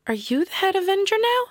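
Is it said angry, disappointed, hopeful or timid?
timid. It sounds timid.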